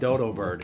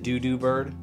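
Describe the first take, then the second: First: The word is said with an 'oh' vowel. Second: The word is said with an 'oo' vowel. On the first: The speaker calls it wrong. "Why is it called dodo bird?" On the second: The speaker calls it right. "Isn't it doo-doo bird? ... it's definitely doo-doo"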